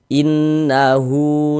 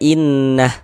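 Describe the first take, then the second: First: The word ends with a long drawn-out u vowel. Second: The word ends on a bare h without vowel. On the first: The reader continues without stopping. "kalau misalkan kita wasolkan ... baru berlaku tanda panjangnya hu" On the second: The reader stops at this word. "Kita berhenti di huruf H, maka ini kita baca innah. Huruf hanya dimatikan"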